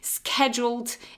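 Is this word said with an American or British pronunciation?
American. It is said with an American pronunciation. "is the American one"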